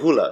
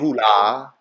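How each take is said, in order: First: The vowel 'a' is a short 'uh' sound. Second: The vowel 'a' is an open 'ah' sound. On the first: The speaker calls it right. "that's a little a hula" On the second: The speaker calls it wrong. "You don't say"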